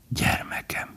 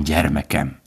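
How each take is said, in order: First: Breathless whisper, much softer. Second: Said in the usual way. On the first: A narrator's reading. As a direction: let the word slip out in a whisper. Word repeated, slipped out softly.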